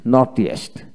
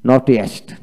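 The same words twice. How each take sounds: The two takes are said the same way.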